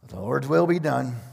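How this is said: It is said in a frustrated tone. The speakers give in reluctantly. "That statement could be made out of frustration"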